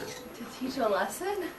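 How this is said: The voice rises at the end like a question.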